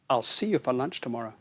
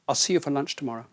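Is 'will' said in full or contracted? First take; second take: contracted; contracted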